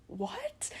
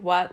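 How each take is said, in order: First: High, soft whispered what; scared whisper. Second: Short loud bratty yell of what; retold scream. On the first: Retold or imitated. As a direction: breathe the word out, spooked. Scared in empty house. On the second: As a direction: bark it out toward the kitchen. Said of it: "and I just screamed".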